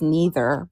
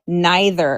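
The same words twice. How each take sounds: First: The word uses the plain, ordinary pronunciation. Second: The word uses the fancier-sounding pronunciation.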